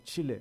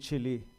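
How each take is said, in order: First: The name is pronounced the native Spanish way. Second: The name is pronounced the anglicized English way. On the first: The speaker calls it right. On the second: The speaker calls it wrong.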